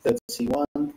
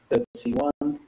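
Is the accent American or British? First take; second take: British; British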